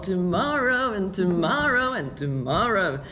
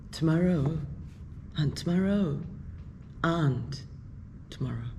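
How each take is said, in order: First: It is said in a bright, joyful tone. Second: It is said in a slow, sad tone. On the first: "if one just say it with joy" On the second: "with sad tone"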